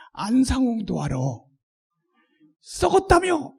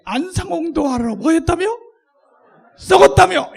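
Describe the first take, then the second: First: Scornful, teasing jab; mocking retort. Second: Building to a loud, high sneer on "썩었다며"; loud mocking retort. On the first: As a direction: needle them with a sneer. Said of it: "이렇게". (비꼬듯 쏘아붙이기) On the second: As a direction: shout the jab at them. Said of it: "이렇게 하는 거예요". (점점 크게 비꼬며 외침) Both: Shown as a demonstration.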